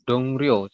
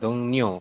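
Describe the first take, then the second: First: The second syllable begins with an R sound. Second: The second syllable begins with an N sound. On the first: The speaker calls it wrong. "Mungkin ya teman-teman akan membacanya itu dongrio seperti ini" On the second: The speaker calls it right. "Tetapi nanti dibacanya bukan dongrio"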